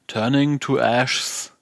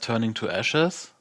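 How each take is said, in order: First: The e sound in the last word is dropped. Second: The e sound in the last word is kept. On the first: The speaker calls it wrong. "einfach das E unterschlagen" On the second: The speaker calls it right. "Der Song heißt Turning to Ashes"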